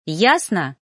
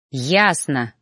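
First: Pointed challenge. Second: Low, curt angry bark; barked reply. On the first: Trainee challenges her mentor, pointedly. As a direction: press it home as a triumphant question. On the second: Mentor snaps back at his trainee, barking. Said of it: "рявкнул Ноан". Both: A narrator's reading.

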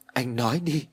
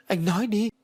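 First: Restrained first demand for an answer; mildly urgent. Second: High-pitched pleading demand; very urgent. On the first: Ái starting to question Phú, mildly urgent. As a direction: press him with contained worry. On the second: Ái begging Phú to explain, very urgent. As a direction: push for an answer, voice raised in pitch. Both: A narrator's reading. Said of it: "Ái càng nói càng gấp gáp".

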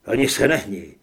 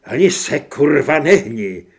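First: Low, loud warning; stern threat. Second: Very loud, explosive order to freeze; furious shouted threat. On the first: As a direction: order them to freeze at gunpoint. Narrator threatens Grant at gunpoint. (výhružný rozkaz) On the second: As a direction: yell the warning, hammering the swear word. Repeats gunpoint threat, now swearing. (vzteklý křik se zbraní v ruce) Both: A narrator's reading.

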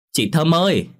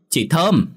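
First: Calling out. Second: Higher call, falling at the end. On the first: Lan calls neighbour from outside. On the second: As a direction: call across the yard to the neighbour. Lan calls neighbour again. (gọi to, giọng cao, cuối câu hạ xuống) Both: Acted.

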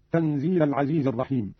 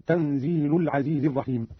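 First: Said in the usual way. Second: "تنزيل" ending in u, tanziilu; lam with damma. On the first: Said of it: "قرأ قالون برفع اللام هكذا". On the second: Shown as a demonstration. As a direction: say "تنزيل" as tanziilu-l before العزيز. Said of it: "برفع اللام هكذا".

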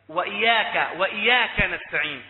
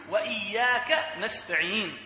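First: وإياك with a single unheld y; loud demo of وإياك minus the doubled y; ya without doubling. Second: Slow وإياك with a held double y; careful, drawn-out وإياك, y doubled. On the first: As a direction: let the y in وإياك pass short. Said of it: "بدل ما يقول". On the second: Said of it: "بالتجديد". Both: Shown as a demonstration.

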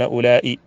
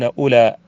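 First: "أولئي" with long aa, then glottal stop and short i; with final hamza. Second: "أولى" ending on an open long aa, no glottal stop; without hamza. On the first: Teacher showing what those tribes avoid, "أولئي" with final hamza. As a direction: say "أولئي" as ulaa-i, hamza sounded. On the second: Teacher quoting the tribes' dialect, "أولى" without final hamza. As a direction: say "أولى" as ulaa, leaving the end open. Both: Shown as a demonstration. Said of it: "لا يأتون بالهمزة".

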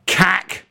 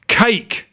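First: High sharp shout of Cack; shouted name. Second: "Cake" said as cake, with a long ay, shouted high; mispronounced name. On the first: A narrator's reading. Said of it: "he shouted". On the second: Shown as a demonstration. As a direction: yell "Cake" like the cake, not "Cack". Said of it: "how can I say cack and then say it was pronounced differently".

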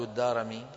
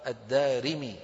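First: الدارمي said "ad-Darami", with a after the r; wrong pronunciation. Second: الدارمي said "ad-Darimi", with i after the r; correct pronunciation. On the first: Teacher warning students off the error, mispronounced "ad-Darami". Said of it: "لا تقول". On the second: Teacher correcting the mistake, pronounced "ad-Darimi". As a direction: clearly sound "ri" in الدارمي. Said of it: "بكسر الراء". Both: Shown as a demonstration.

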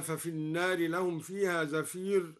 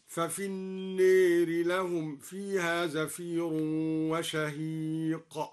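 First: Said in the usual way. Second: النار recited with its alif leaned toward e, slow; recited with imala. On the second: Shown as a demonstration. Teacher recites al-Duri's imala of النار, slow chant. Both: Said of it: "أمال النار".

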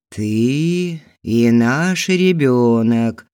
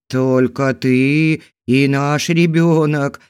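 First: Slow, coaxing, drawn-out words; insinuating voice. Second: Slow, louder wheezy husband's voice; husband wheezing his answer, slow and loud. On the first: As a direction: purr it slowly to seduce her. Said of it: "вкрадчивым голосом повторил мужчина". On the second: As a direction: wheeze the words out slowly. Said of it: "просипел мужчина". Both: A narrator's reading.

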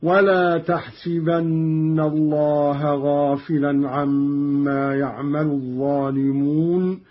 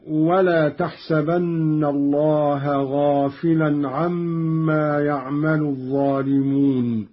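First: تحسبن recited as taḥsibanna; تحسبن with kasra, taḥsibanna; Qalun kasra on sin. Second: تحسبن recited as taḥsabanna; تحسبن with fatha, taḥsabanna; fatha on sin. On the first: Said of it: "بكسر السين في الموضعين هكذا". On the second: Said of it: "قرأ قالون بكسر السين". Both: Shown as a demonstration.

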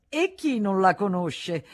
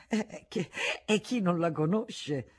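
First: Higher, louder jeering question; loud mocking taunt. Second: Halting, slowed stammer; stammering repeat. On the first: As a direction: throw it out as a provocation. Taunt before the stammered repeat. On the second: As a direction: trip over the words nervously. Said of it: "ripeté balbettando". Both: A narrator's reading.

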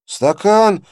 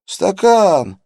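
First: High, loud gurgling indignant cry; gurgling indignant yell. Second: High, loud gurgling cry, falling; gurgling indignant yell. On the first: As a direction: yell it in a strained bubbling voice. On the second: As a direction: bubble out an outraged yell. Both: A narrator's reading. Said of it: "возмущённо завопил малец натруженным булькающим голосом".

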